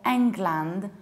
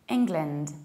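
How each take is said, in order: First: The final syllable is a full 'land'. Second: The final syllable is a reduced 'lind'. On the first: The speaker calls it wrong. "I usually hear people mispronounce this country" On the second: The speaker calls it right. "reduce the ending and say lind"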